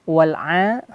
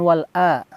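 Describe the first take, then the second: First: The ain sound is clearly pronounced. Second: The ain sound is missing or weak. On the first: The speaker calls it right. "pertama adalah huruf ain" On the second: The speaker calls it wrong.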